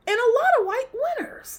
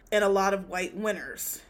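First: Very high, louder, fast, breaking into laughter; exasperated squeal. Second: Said in the usual way. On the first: Real, not acted. Host hammers home the awards complaint, exasperated high squeal. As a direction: squeal the repeat, about to crack up. Third escalating repeat, ends laughing.

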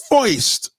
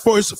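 First: First said as foist, with an oi sound. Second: Said in the usual way. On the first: Retold or imitated. Imitating New Yorkers who say first as foist.

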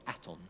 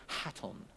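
First: Hatton with the H dropped, French-style "Atton"; French pronunciation. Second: Hatton with a sounded H, English-style; English pronunciation. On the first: Correcting the teacher's name, Hatton said French-style without H. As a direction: say "Hatton" as the French would, silent H, nasal ending. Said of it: "a French teacher called Monsieur". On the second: Naming his old French teacher, Hatton said English-style with an H. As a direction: say "Hatton" as in English, H voiced at the start. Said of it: "probably Hatton, I don't know". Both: Shown as a demonstration.

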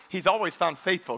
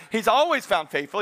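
First: Said in the usual way. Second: He's always found faithful, driven home firmer; emphatic repeat. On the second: Shown as a demonstration. Preacher repeating the line after calling for amen, emphatic. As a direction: punch "always" as a proclamation. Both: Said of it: "Can I hear a good amen".

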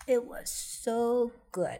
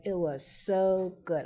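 First: "so good" stretched slow and high; emphatic savoring. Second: Said in the usual way. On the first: Real, not acted. Remembering the best drumstick of her life, slow and savoring. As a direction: linger on "so good" like you still taste it.

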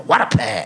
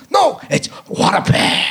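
First: Said in the usual way. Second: High, emphatic "what a pair"; Mel's line reading. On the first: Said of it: "where I had to say". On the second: Retold or imitated. Director correcting the actor, high emphatic reading. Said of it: "And he goes".

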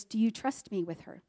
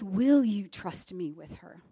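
First: Said in the usual way. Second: "Will" leaned on, said slowly and a bit lower; stress on Will. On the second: Retold or imitated. God's voice, retold, pressing the mother with the new question. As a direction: hit "Will" and take it slow. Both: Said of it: "those two different questions".

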